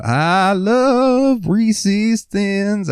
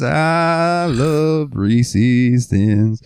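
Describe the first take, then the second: First: Very high, slow sung "I love Reese's Thins"; singsong crooning. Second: Slow sung "I love Reese's Thins" at normal pitch; singsong crooning. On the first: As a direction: croon it to yourself walking the aisle. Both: Retold or imitated. Customer singing to himself.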